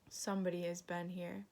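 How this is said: It is growled in a sad, dreary voice.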